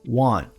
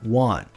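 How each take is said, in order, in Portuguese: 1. O T final é fraco, quase silencioso. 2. O T final é fraco, quase silencioso.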